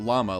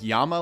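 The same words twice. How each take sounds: First: It is pronounced the English way. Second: It is pronounced the Spanish way. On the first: "like the animal" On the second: "like Spanish"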